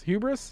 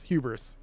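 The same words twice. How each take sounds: First: Hubris? with a sharply rising question tune; Hubris? rising, unsure; questioning rise. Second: Hubris. with a firm falling tune; Hubris. falling, decided; settled fall. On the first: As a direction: ask Hubris? as if doubting the word. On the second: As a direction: state Hubris. as the decided answer. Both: Shown as a demonstration. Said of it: "uh, hubris".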